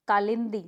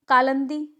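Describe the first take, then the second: First: कालिंदी as kaa-lin-dee; correct pronunciation. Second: कालंदी louder, as kaa-lan-dee; incorrect pronunciation. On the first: Teacher correcting the class, कालिंदी with short i. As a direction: put "lin" in the middle of कालिंदी. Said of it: "क्या होगा?". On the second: Teacher showing a mistake, कालंदी with a for i. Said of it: "नहीं". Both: Shown as a demonstration.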